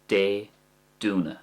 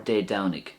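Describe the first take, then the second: First: The first vowel sounds like 'oo'. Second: The first vowel sounds like 'ow'. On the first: "like a do sound" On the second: "That's the way I would say it"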